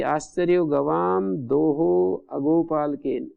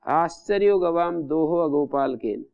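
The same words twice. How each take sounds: First: Slow, word-by-word recitation of आश्चर्यो गवाम दोहो अगोपालकेन. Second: Said in the usual way. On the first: Shown as a demonstration. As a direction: spell out the example slowly for the class. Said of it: "गवाम दोहा इत्यत्र समासो न भवति". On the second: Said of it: "अस्मिन वाक्ये तु समासो न भवति".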